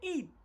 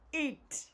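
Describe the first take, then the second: First: The final T sound is barely heard. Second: The final T sound is clearly heard. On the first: The speaker calls it wrong. "don't don't just say eat" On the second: The speaker calls it right. "T must be heard"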